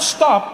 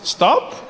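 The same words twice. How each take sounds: First: It sounds like a firm, forceful command. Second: It sounds like a soft, hesitant suggestion.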